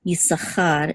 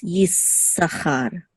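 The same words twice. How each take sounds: First: "Yisachar" with a short single S; undoubled S. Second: "Yisachar" slowly, with a held S; doubled S. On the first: Teacher shows what to avoid, "Yisachar" with the S unheld. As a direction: run through "Yisachar" without holding the S. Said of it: "so instead of". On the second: Teacher demonstrates the doubled letter, "Yisachar" with S held. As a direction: linger on the S in "Yisachar": yis-sachar. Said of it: "you hold it a little bit". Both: Shown as a demonstration.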